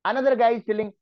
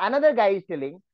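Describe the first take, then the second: Both takes have the same delivery.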